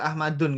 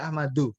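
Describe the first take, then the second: First: The word ends with an added n sound. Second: The word ends on a vowel, no n. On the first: The speaker calls it wrong. "dia nggak Ahmadun gitu" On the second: The speaker calls it right. "tapi Ahmadu"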